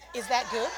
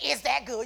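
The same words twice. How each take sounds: First: The question sounds gentle and considerate. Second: The question sounds rude and confrontational. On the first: The speaker is showing concern for the other person. The speaker calls it right. "You say" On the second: The speaker is arguing in the flesh. The speaker calls it wrong. "And you don't say"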